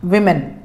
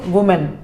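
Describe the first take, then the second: First: The first syllable sounds like 'wi'. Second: The first syllable sounds like 'woo'. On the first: The speaker calls it right. "इसका जो pronunciation होता है उसको कहते हैं विमेन" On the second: The speaker calls it wrong. "Not वुमेन"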